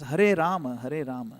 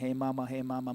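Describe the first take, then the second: First: Each word is pronounced clearly and distinctly. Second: The words are rushed and slurred together. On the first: The speaker calls it right. "It's Hare Rama, Hare Rama, like that" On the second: The speaker calls it wrong. "If you do it really fast, it becomes just like a blur"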